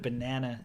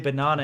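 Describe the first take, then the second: First: It is said in an American English accent. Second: It is said in a non-American English accent. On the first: "instead of banana" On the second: "we say banana"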